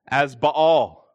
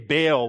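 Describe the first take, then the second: First: The double vowel is split into two syllables. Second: The vowels merge into a single syllable. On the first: The speaker calls it right. "I've been pronouncing the Canaanite god, Baal, as Baal" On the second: The speaker calls it wrong. "why can't you just say Baal like everyone else?"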